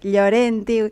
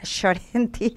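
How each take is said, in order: First: The name has a softer, more delicate opening sound. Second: The name has a strong Argentine-style opening sound. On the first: This is how the name is properly said. "se pronuncia más delicadamente" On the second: This is how people in Argentina say it. "nosotras en Argentina"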